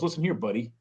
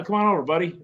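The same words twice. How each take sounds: First: Low-key warning "listen here, buddy"; understated warning to a so-called buddy. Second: Casual, friendly "come on over, buddy"; easy come-on-over tone; friendly invitation. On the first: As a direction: put someone quietly on notice. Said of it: "But if someone goes". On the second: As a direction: welcome a pal over. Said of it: "it's how you emphasize it". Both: Acted.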